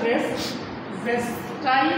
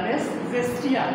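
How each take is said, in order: First: It starts with a j sound and ends in 'tai'. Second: It starts with a j sound and ends in 'tia'. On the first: "কেউ কেউ বলছে রেস জেস্টাই" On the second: "কেউ কেউ বলছে রেস জেস্টিয়া"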